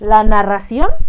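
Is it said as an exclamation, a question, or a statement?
question. It is said with a questioning, rising tune. Someone is asking something. "como preguntando"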